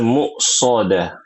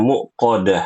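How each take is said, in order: First: A clear 's' sound is in the middle. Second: The middle 's' sound is left out. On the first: The speaker calls it right. "Harusnya muqsadah" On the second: The speaker calls it wrong. "tadi ibu baca muqadah ya"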